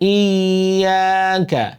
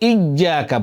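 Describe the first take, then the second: First: The y sound is soft and gliding. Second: The y sound is hard, almost like j. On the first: The speaker calls it right. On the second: The speaker calls it wrong.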